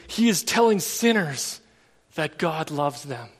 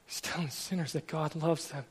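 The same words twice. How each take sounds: First: Said in the usual way. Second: Much softer, letting it land; preacher repeating the wife's words to the congregation, hushed; quiet reflective repeat. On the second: Real, not acted. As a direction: say it again softly, to yourself.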